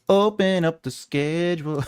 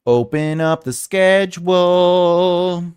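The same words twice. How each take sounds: First: Said in the usual way. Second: Drawn-out. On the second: Shown as a demonstration.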